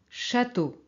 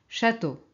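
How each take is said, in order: The two takes are said the same way.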